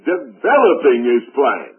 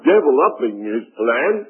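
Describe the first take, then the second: First: The stress is on the second syllable. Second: The stress is on the first syllable. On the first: God is unfolding his plan. The speaker calls it right. "what he was really trying to say" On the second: God is deviling up his plan. The speaker calls it wrong. "The old man had the accent on the wrong syllable"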